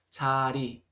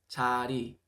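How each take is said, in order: Both takes have the same delivery.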